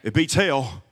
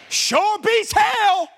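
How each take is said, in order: First: Said in the usual way. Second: Sure beats hell stretched out, each word hit hard; high, loud and slow punchline. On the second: Shown as a demonstration. Pastor repeating his joke to the congregation, loud slow shout. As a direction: shout the punchline much higher and slower.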